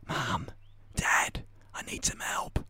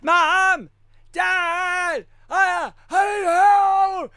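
First: It is said in a soft whisper. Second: It is said loudly in full voice.

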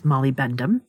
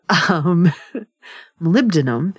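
First: The consonants are swapped, giving molybendum. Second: The consonants are in standard order, giving molybdenum. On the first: This is a childhood mispronunciation. The speaker calls it wrong. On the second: This is the standard pronunciation. The speaker calls it right.

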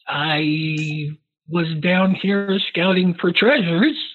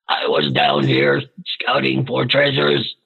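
First: It is said in the speaker's natural voice. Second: It is said in a put-on character voice.

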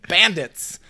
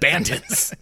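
First: The word is said without any extra sound. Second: The word is said with an extra sound added. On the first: The speaker calls it right. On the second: The speaker calls it wrong.

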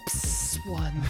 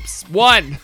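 First: The word one is said softly. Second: The word one is said loudly.

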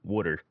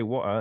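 First: The word is said in an American accent. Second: The word is said in a British accent. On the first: "we say water" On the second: "you guys say water"

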